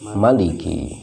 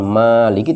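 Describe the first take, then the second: First: The first vowel is kept short. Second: The first vowel is held long. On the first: Some other scholars read it this way. "ada ulama lain yang membacanya" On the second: This is the common reading. "bukan maliki"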